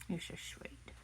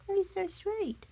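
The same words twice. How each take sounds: First: Soft whispered "You're so sweet." to the pet. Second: "You're so sweet." in a much higher sing-song coo. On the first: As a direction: breathe the words to the dog. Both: Real, not acted. Cooing to the pet.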